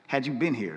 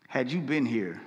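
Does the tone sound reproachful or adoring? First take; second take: reproachful; adoring. First: It sounds reproachful, like asking what took so long. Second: It sounds adoring, full of faith and devotion.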